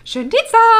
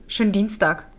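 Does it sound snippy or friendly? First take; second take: friendly; snippy. First: It is said in a warm, friendly tone. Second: It is said in a snippy, curt tone.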